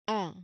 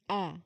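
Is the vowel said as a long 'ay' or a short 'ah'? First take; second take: ah; ah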